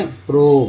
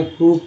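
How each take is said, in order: First: प्रोब with a long "oh" vowel; misread long O. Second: प्रूव with a long "oo" vowel. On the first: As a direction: misread "prove" as प्रोब, rhyming with robe. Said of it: "आप ये क्या पढ़ेंगे". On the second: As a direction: say "prove" as प्रूव, vowel as in groove. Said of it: "ये क्या पढ़ेंगे". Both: Shown as a demonstration.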